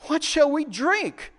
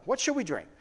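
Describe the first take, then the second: First: High, drawn-out complaint; murmuring complaint. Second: Said in the usual way. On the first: Acted. Thirsty people murmuring against Moses, high slow complaint. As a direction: grumble it slowly, pitched well up. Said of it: "the people murmured against Moses, saying". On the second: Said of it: "Let's stop there".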